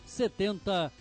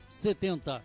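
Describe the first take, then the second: No difference in how they are said.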